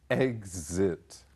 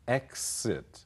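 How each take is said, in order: First: The middle consonant has a voiced z sound. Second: The middle consonant has a voiceless s sound. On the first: "z 的音"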